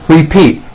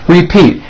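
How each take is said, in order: No difference in how they are said.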